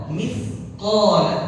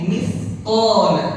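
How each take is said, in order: The two takes are said the same way.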